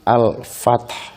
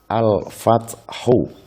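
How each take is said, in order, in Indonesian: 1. Kata ini berakhir dengan bunyi h yang samar dan lembut. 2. Kata ini berakhir dengan vokal 'u' yang penuh. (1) "Haknya lirih" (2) "Bacaan aslinya adalah al-fathu"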